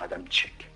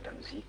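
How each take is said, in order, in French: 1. La dernière syllabe commence par un son ch. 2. La dernière syllabe commence par un son z. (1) "prononçaient son nom à la polonaise" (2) "Moi, on dit"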